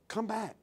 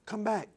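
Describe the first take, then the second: First: Soft, pleading call back. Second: Soft, pleading call again; a gentle second call, still soft. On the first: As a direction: call him home softly, like a spirit. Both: Acted. Holy Spirit gently calling back.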